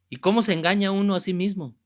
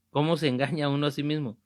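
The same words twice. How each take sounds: First: "¿Y cómo se engaña uno a sí mismo?" asked louder and higher, leaning on "cómo"; raised rhetorical question, "cómo" punched. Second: "¿Cómo se engaña uno a sí mismo?" repeated fast at normal level; brisk follow-up repeat of "¿Cómo se engaña uno a sí mismo?"; quicker repeat. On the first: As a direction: push the question out to the congregation, stressing "cómo". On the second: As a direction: rattle the question off again quickly. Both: Shown as a demonstration.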